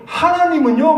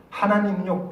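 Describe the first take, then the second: First: High rising emphasis on 하나님은요; emphatic rising call. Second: 하나님은요 said softer, falling at the end; softer falling emphasis. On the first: Preacher rousing the congregation, 하나님은요 rising high. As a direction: lift 하나님은요 sharply up at the end. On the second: Preacher quietly turns to the congregation, soft falling 하나님은요. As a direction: drop 하나님은요 down gently. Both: Acted.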